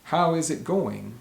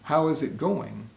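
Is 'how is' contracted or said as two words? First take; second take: two words; two words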